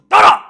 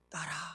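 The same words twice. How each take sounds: First: The word is shouted loudly. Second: The word is said softly and tenderly.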